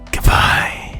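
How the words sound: It sounds cheerful and bright.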